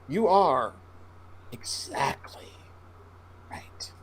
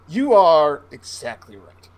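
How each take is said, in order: First: It is said at a slower pace. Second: It is said at a quicker pace.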